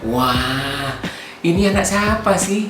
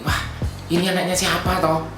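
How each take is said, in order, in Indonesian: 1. Pertanyaan itu terdengar kagum dan terkesan. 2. Pertanyaan itu terdengar tidak setuju dan kritis. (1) "tapi intonasinya beda" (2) "kalau misalnya dia melakukan hal yang tidak pantas"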